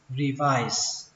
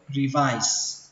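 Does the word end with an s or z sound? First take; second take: s; s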